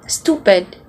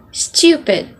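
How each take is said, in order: First: STUPID said low as "stoo-pid"; American pronunciation. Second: STUPID said as "styoo-pid"; British pronunciation. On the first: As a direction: say "stupid" with no y-glide. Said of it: "it's not stupid". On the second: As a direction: put a British y-glide into "stupid". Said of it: "it's stupid". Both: Shown as a demonstration.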